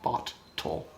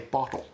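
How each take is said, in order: First: The middle t is a full hard stop. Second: The middle t is softened into a quick tap. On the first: The speaker calls it wrong. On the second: The speaker calls it right. "They'll say"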